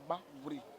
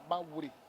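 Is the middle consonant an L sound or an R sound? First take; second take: R sound; R sound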